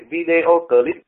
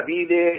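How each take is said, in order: First: Said in the usual way. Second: Video said as Vietnamese syllables, vi-đê-ô, slowed down. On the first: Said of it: "chữ video clip". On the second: Shown as a demonstration. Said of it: "họ đọc là".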